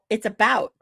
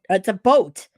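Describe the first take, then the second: First: About is said in a standard American way. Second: About is said the Canadian way, like a boat.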